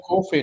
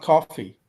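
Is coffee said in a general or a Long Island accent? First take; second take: Long Island; general. First: It is said with a Long Island accent. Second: It is said with a general, non-local accent. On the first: "We say coffee" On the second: "not coffee"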